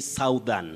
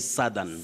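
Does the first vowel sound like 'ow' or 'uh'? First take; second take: ow; uh. First: The first vowel glides like 'ow'. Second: The first vowel is a short 'uh'. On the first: The speaker calls it wrong. "you don't say southern" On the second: The speaker calls it right. "that vowel glide disappears and you use what we call the mid-central vowel sound uh"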